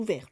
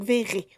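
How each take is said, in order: First: Vert as one syllable, like French vert; alternative pronunciation. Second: Verré said in two syllables, ending in é; alternative pronunciation. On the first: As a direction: say Vert with no final é. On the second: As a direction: say Verré with a final é sound. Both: Shown as a demonstration. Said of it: "Ou Vert, je sais pas".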